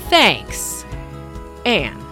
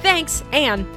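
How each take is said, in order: First: The sign-off sounds curt and irritated. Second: The sign-off sounds light and friendly. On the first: A stressed reader takes it as hostile. "having a really bad hair day" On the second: The writer meant it casually. "And that's the tone"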